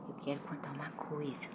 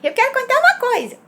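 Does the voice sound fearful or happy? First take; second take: fearful; happy. First: It sounds hesitant and fearful. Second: It sounds high and happy.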